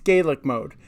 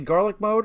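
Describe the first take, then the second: First: The first vowel sounds like 'gay'. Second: The first vowel sounds like 'gar'. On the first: "I think it's Gaelic mode" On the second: "in Scotland they say garlic mode"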